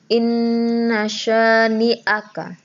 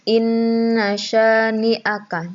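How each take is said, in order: Both takes have the same delivery.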